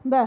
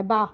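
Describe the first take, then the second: First: ب with a short tilted vowel; Arabic fatha. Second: با with a straight open a; plain Urdu با. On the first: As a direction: clip ب and slant the vowel. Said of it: "لیکن عربی میں با زبر ب". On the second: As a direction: straight vowel. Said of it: "Urdu میں با زبر با ہوتا ہے". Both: Shown as a demonstration.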